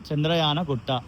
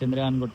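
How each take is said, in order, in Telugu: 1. Chandrayan తర్వాత gutta ముందు ఒక పూర్తి అచ్చు వస్తుంది. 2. Chandrayan నేరుగా gutta లోకి కలుస్తుంది, అచ్చు లేదు. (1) "తెలుగులో చదివితే" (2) "మన వాడుక భాషలో"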